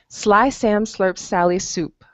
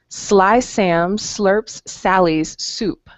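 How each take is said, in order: First: It is said at a fast pace. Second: It is said at a slow pace.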